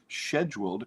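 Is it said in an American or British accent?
British. It is said in a British accent.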